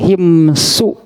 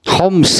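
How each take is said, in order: First: It is said as two syllables with an 'i' vowel. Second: It is said as one syllable with an 'o' vowel. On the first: This is the original form of the name. "himsu asli nama ha mim sod" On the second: This is the modern English-dialect form of the name. "dialek dialek Inggris lah. Homs gitunya nyebutnya"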